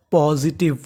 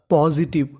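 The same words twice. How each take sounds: The two takes are said the same way.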